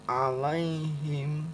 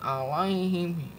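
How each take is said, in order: First: The ai sound is soft and gentle. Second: The ai sound is pushed out with force. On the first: The speaker calls it right. "lembut aja ya" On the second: The speaker calls it wrong. "Jangan dibaca"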